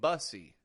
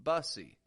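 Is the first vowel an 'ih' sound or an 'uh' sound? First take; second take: uh; uh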